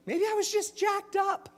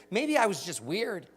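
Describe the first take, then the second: First: Much higher, silly squeak on jacked up; goofy high-pitched punchline; squeaky goofy voice. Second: Said in the usual way. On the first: Shown as a demonstration. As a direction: pop the punchline up into a cartoon squeak. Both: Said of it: "That's my favorite line".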